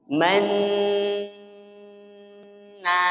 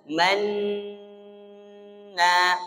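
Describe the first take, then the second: Both takes have the same delivery.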